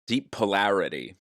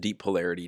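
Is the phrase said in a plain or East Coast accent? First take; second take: East Coast; plain. First: It is said in an East Coast accent. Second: It is said in the speaker's ordinary accent.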